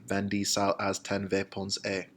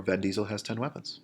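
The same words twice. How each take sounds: First: Spanish "Vin Diesel has ten weapons", as ven, di, sal, haz, ten, ve, pon, sé; Spanish command words. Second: Said in the usual way. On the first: Shown as a demonstration. Teacher reciting irregular commands as a memory trick, Spanish pronunciation. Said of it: "you can remember them by". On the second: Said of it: "Or Vin Diesel has ten weapons".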